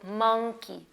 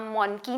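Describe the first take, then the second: First: मंकी slowly as mung-kee; correct monkey. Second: मोंकी as mon-kee with a round o; मोंकी said as mawn-kee; mispronounced monkey. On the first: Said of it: "अ करके sound आ रही है". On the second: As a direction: sound a full o and n in मोंकी. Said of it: "आप मोंकी नहीं बोलेंगे". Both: Shown as a demonstration.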